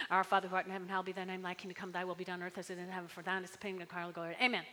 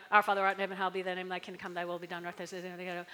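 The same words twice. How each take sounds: First: Fast, low, mumbled rote recital; rattled-off prayer. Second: Fast, low, mechanical recital; rattled-off prayer. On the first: Pastor mocking a rote prayer, rattled off fast. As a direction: rush through it without meaning. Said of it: "so we can just say it really fast". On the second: Pastor showing a prayer said by rote, rushed. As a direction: gabble it by rote. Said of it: "someone comes up to you". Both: Shown as a demonstration.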